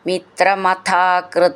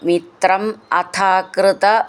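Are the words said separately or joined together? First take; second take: joined; separate. First: The two words are joined into one. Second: The two words are said separately.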